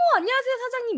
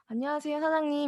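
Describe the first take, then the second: First: The greeting is said high and bright. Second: The greeting is said flat and low. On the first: The speaker calls it right. "훨씬 더 낫잖아요. 솔톤" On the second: The speaker calls it wrong. "이거보다"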